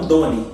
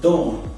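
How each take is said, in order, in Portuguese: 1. Termina com uma vogal acrescentada, duas sílabas. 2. Termina em consoante, uma sílaba.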